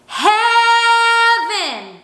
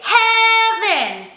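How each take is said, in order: First: "heaven" sung long with an open ah-like vowel; belting toward ah. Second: "heaven" sung with a narrow eh vowel; wrong belted vowel. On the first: Teacher shows the preferred way, "heaven" opened to ah. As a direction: open the mouth wide and belt "heaven" toward ah. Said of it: "I'm gonna say". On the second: Teacher shows what not to do, "heaven" on eh. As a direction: belt "heaven" on a tight eh, no ah. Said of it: "I don't wanna say". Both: Shown as a demonstration.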